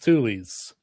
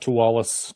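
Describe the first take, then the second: First: The name is pronounced like Tules. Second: The name is pronounced like Tualis. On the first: The speaker calls it right. "It is actually" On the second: The speaker calls it wrong. "not Tualis"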